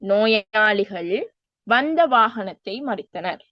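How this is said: There is a pause after the first word. The patients stopped the vehicle that came. "நோயாளிகள் கொஞ்சம் நிறுத்தி வந்த வாகனத்தை மறித்தனர் என்று சொல்லலாம்"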